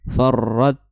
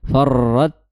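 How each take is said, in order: No difference in how they are said.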